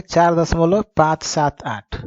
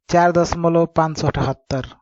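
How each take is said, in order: First: "पाँच सात आठ" said digit by digit, slow and separate; correct digit reading. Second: "पाँच सौ अठहत्तर" read as one whole number, five hundred seventy-eight; wrong way of reading. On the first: Teacher shows students the right reading, slow separate digits. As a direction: read "चार दशमलव पाँच सात आठ" slowly, each digit alone. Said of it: "इसको क्या पढ़ेंगे". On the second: Teacher shows students the common wrong reading, whole number after the point. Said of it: "लेकिन ऐसे नहीं पढ़ जाता". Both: Shown as a demonstration.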